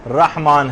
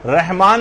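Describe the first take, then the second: First: رحمان said as "rahmaan", with a throaty ح; correct open "rah". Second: رحمان said as "rehmaan", with a light h; wrong vowel and h. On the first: Teacher gives the right form after the wrong, careful pronunciation. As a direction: open the first syllable of رحمان to "rah", deep ح. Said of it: "رحمان ہے۔". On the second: Teacher shows what not to say, mispronounced first syllable. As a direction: say رحمان the everyday way, "reh" for "rah". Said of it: "رحمان نہیں ہے". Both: Shown as a demonstration.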